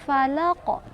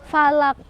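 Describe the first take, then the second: First: The final consonant is released with a bounce. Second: The final consonant ends flat, without a bounce. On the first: The speaker calls it right. "Ada pantulan" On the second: The speaker calls it wrong. "nggak boleh falak, falak, kurang tepat"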